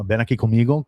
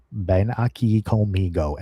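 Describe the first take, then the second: First: Said in the usual way. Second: Put-on slow, laboured Spanish in an American accent; mock American-accented Spanish, drawn out; non-Spanish-speaker's accent. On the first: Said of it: "I said, "Ven aquí" is, like, "Come here". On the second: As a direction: imitate an English speaker sounding out Spanish. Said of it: "my wife doesn't speak Spanish".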